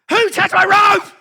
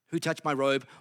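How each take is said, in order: First: It is said in an angry, demanding tone. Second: It is said in a plain, neutral tone. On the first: Someone is going to pay for touching him. "I want names" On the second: It is just a question about who touched him. "the words are there"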